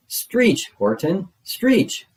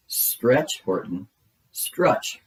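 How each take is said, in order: First: A far higher, louder squealing stretch; shrieking yell. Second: Yelling. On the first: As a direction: scream the order at the top of the voice. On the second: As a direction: bark the order, not yet at full force. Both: A narrator's reading. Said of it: "yelled the bug".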